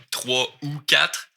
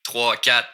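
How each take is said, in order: First: Slow Trois ou quatre, "ou" clearly sounded; drawn-out, careful Trois ou quatre; full form. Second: Trois, quatre with no "ou" between; contracted Québécois Trois, quatre; skipped word. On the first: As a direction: keep every word in Trois ou quatre. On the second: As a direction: run Trois into quatre, dropping the linking word. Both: Shown as a demonstration. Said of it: "je skip le ou ici".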